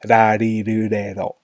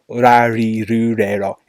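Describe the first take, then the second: First: The R sounds fall between an L and R. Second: The R sounds are a clear English-like consonant. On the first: The speaker calls it right. "It's in the middle" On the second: The speaker calls it wrong. "It's not, for example"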